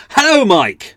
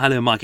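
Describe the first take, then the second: First: Sudden loud, high-pitched shout; exclamation-mark shout. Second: Said in the usual way. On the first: Shown as a demonstration. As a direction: yell the greeting as if it had an exclamation mark. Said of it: "It's a shout thing". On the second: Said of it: "That's not "Hello, Mike." It's".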